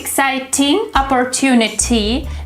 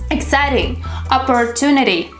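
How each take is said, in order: First: The T in exciting is a crisp T. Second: The T in exciting sounds like a D. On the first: The speaker calls it wrong. "It's not exciting opportunity, it sounds like a British version" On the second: The speaker calls it right. "The sound T changes into D sound when it goes between two vowels"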